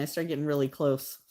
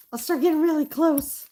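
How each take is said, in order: First: Said in the usual way. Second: Much higher, louder mock squeak; squeaky repeat. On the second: Artist mocking herself to viewers, high squeaky voice. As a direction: echo yourself in a silly high squeak.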